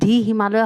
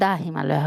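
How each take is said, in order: First: 'The' is said with a long 'dee' vowel. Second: 'The' is said with a short 'duh' vowel. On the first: The speaker calls it wrong. "দি হিমালয় হ'ব নে" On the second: The speaker calls it right. "দা হ'ব"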